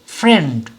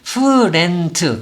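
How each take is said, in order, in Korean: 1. 이 단어는 한 박자로 말합니다. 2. 이 단어는 세 박자로 나눠서 말합니다. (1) "이렇게 소리를 한 박자로 내야 되지" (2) "friend 이렇게는 안 된다는 거죠"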